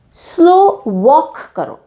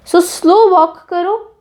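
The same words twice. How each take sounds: First: Drawn-out slow phrase, very slow pace; slow walk said slowly. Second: Slow, drawn-out repeat of the phrase; slow walk said slowly. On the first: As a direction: stretch out slo walk slowly. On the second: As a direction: say it slowly, savoring it. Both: Shown as a demonstration.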